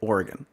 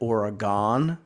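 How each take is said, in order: First: It is said the way locals say it. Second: It is said the outsider way. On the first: This is how the locals say it. The speaker calls it right. "the Oregonians say Oregon" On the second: This is how outsiders say it. The speaker calls it wrong. "I said Oregon for the longest time"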